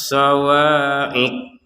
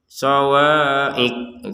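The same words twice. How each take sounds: Both takes have the same delivery.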